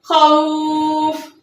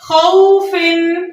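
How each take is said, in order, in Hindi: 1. शब्द सादे 'f' ध्वनि पर खत्म होता है। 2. शब्द 'in' ध्वनि पर खत्म होता है।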